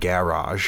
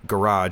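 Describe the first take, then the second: First: It is said with a British pronunciation. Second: It is said with an American pronunciation. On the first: "instead of garage" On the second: "I know I say garage"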